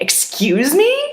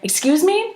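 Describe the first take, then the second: First: It sounds like an offended reaction to an insult. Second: It sounds like a neutral request to repeat. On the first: The listener was insulted by what was said. "like insult you because that's when you would say" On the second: The listener did not hear what was said. "if I don't hear you, I would say"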